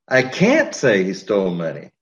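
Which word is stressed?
can't. The word "can't" is stressed. Saying it is not allowed.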